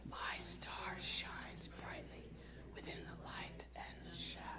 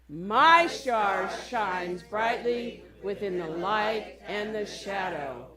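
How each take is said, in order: First: It is whispered softly. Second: It is said as loud as possible.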